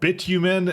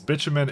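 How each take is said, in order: First: It uses the European pronunciation. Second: It uses the North American pronunciation. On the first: "It's called like bitumen, I think, in Europe" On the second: "it's bitumen in, in North America"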